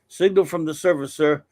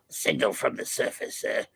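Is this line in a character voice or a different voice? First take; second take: different voice; character voice. First: It is not in the character's voice. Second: It is in an imitated character voice. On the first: The speaker calls it wrong. "That is not his voice" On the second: The speaker calls it right. "that would be like a uh"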